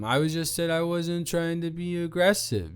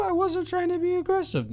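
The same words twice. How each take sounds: First: Said in the usual way. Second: Squeaky high mock repeat. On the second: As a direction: sing it back high and fast. Mocking repeat of own denial.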